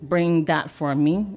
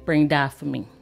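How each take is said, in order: First: Said in a standard English accent. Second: Said in a Barbadian dialect accent. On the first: This is how it is said to tourists. "instead of saying" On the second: This is how locals say it. "you say"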